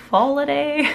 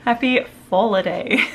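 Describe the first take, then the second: First: Foliday said higher and louder, each syllable tested; trying the word Foliday. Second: Happy Foliday said louder, a shade more settled; retry Happy Foliday with a laugh in the voice; second go at Happy Foliday. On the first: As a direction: sound out Foliday carefully, unsure of the accent. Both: Shown as a demonstration. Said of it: "I've got the wrong accent to say that".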